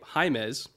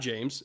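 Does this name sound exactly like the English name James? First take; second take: No; Yes. First: The name is not said like English James. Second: The name is said like English James. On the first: The speaker calls it right. "who we were corrected by Brandon Thorne about his pronunciation for his name" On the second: The speaker calls it wrong. "It's not James"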